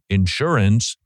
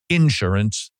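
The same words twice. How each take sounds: First: It is said in a standard US way. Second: It is said in a Southern US way. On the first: "as opposed to the right way of insurance" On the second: "like insurance"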